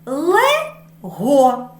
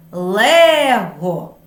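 First: Лего said as ле-го, two clear syllables; syllables spelled out; split into syllables. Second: Лего with a long, loud first syllable ЛЕ; the first syllable of Лего drawn out loud; stress on first syllable. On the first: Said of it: "Поділимо слово на склади". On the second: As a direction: lean hard on the ЛЕ in Лего. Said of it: "Який склад чути голосніше?". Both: Shown as a demonstration.

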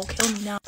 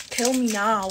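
First: "Kill me now" muttered softer, trailing; muttered repeat. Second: Mock-dramatic "Kill me now", full voice; dramatic plea. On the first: Acted. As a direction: mumble it again, deflated. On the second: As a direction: overplay the misery.

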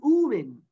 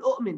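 First: أؤمن said as uumin, a long u with no second hamza; the correct أؤمن, hamza turned into a long vowel; correct form. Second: أؤمن said with two hamzas, a glottal stop after the first; the incorrect أؤمن, both hamzas sounded; wrong form. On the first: Teacher gives students the right form with a long u. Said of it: "بل قل". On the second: Teacher shows students the forbidden form with two hamzas. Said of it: "لا يجوز لك أن تقول". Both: Shown as a demonstration.

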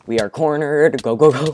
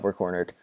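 First: Loud, high cry of alarm; panicked shout. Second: Said in the usual way. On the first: Real, not acted. Player cornered by enemies urging escape, panicked shout. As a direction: yell it to get everyone moving.

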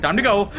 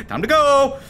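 First: Said in the usual way. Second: Rallying call; urgent call. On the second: Real, not acted. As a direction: call it out high, stretching the last word. Calls the others to leave.

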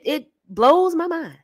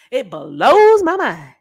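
First: Said in the usual way. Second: "blows" stretched out long and punched; stress on blows. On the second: Real, not acted. Coach amazed at what women allow, "blows" drawn out emphatically. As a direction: drag out "blows" with heavy emphasis.

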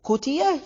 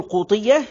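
First: "كوتية" with light K and plain T; light, Greek-style "كوتية"; Greek form. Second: "قوطية" with back Q and heavy ط; Arabized "قوطية", dark consonants; Iraqi form. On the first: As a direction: keep the T thin in "كوتية". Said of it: "باليونان". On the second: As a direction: thicken the T in "قوطية". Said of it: "بالعراق لو جيت تقول". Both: Shown as a demonstration.

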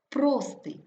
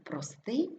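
First: ПРОстий, high stressed ПРО then fall; stress on first syllable. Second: ПроСТИЙ, rising on stressed ending; stress on last syllable. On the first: Teacher showing double stress, stress on ПРО. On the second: Teacher showing double stress, stress on СТИЙ. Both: Shown as a demonstration. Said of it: "слова із подвійним наголосом".

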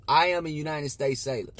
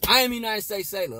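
First: Said in the usual way. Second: Hard, tough, higher and proud; tough as hell. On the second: Shown as a demonstration. Recruit reciting the creed, tough as hell. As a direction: bark it out like a tough sailor. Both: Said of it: "like, tough as hell".

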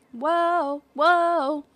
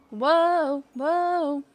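The two takes are said the same way.

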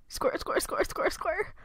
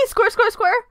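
First: Soft unvoiced whisper; hushed, sneaking past. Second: Said in the usual way. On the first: Real, not acted. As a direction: breathe the words, barely audible. Hushed counting while sneaking.

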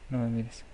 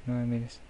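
The two takes are said the same way.

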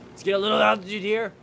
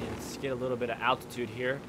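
First: High, loud urgent yell. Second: Said in the usual way. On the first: Real, not acted. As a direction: shout it over the chaos. Flying helicopter, now yelled.

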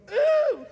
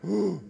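First: Very high, loud hoot; family's gorilla hoot. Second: Gorilla grunt. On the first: Parents and boy answering the gorilla in unison, high hoot. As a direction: squeal an ape call like a delighted family. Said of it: "they all go". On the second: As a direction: grunt out an ape call. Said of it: "looked at him and went". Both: Acted.

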